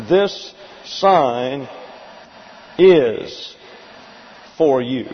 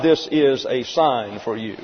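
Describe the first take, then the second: First: "This sign ... is ... for you", long pauses around "is"; deliberate, spaced-out translation. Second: Said in the usual way. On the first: Shown as a demonstration. Teacher giving his translation of the verse, deliberate and spaced out. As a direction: set "is" apart with a pause either side, word by word. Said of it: "here's how we're going to translate".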